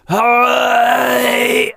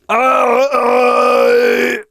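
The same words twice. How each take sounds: First: The grit sits high in the throat, more raspy. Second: The grit sits low in the throat, less raspy. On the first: "Higher. ... The raspier it gets, the higher it's placed in the throat"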